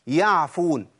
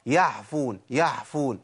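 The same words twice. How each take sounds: First: "يعفون" بعين واضحة; clear ain. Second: "يعفون" بعين مهموسة قريبة من الحاء; ain turned to ha. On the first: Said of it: "ده الصح". (العين الصحيحة) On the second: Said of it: "الخطأ". (العين المهموسة الخطأ) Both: Shown as a demonstration.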